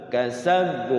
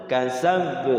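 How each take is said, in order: The two takes are said the same way.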